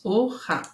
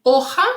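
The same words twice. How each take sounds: First: Hoja in two separate beats; hoja split in syllables. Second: Said in the usual way. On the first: Shown as a demonstration. Teacher showing pupils the two syllables, hoja syllable by syllable. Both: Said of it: "duas sílabas".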